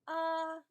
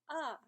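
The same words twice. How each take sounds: First: It is said with the first tone. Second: It is said with the fourth tone. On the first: "first tone" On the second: "and fourth tone"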